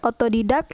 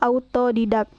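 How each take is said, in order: First: The first vowel is a plain o. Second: The first vowel is the diphthong au. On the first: The speaker calls it wrong. "Contoh salahnya yaitu" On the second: The speaker calls it right. "yang benarnya yaitu"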